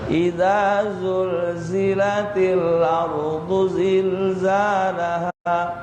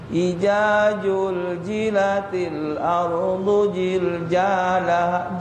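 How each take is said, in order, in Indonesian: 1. Huruf-huruf itu diucapkan dengan bunyi z. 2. Huruf-huruf itu diucapkan dengan bunyi j.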